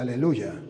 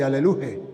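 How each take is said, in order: First: The word ends with a 'ya' sound. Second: The word ends with a 'he' sound. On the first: It praises the name Yahweh. The speaker calls it right. "habla de aleluya" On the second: It praises the name Jehovah. The speaker calls it wrong. "No habla de aleluje"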